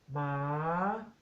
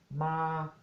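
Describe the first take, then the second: First: It is said on a rising tone. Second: It is said on a level mid tone. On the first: It means dog. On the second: It means to come. "el tono neutro, medio"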